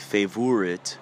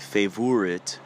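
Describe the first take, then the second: First: It is said in a put-on European accent. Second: It is said in a put-on European accent.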